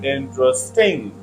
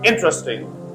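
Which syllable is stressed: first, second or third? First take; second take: third; first. First: The stress is on the third syllable. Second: The stress is on the first syllable. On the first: "if you put stress on third syllable" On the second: "If you put stress on first syllable"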